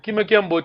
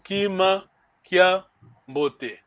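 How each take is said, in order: First: The two words run together without a pause. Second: There is a pause between the two words.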